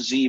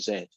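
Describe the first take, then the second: First: The letter is said as 'zee'. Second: The letter is said as 'zed'. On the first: The speaker calls it wrong. "It looks like a Z" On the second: The speaker calls it right. "but it's really a Z"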